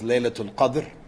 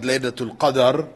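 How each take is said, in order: First: No vowel is heard between the d and r. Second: A vowel is heard between the d and r. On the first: The speaker calls it right. "We know it as Laylatul Qadr" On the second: The speaker calls it wrong. "It's not Laylatul Qadr"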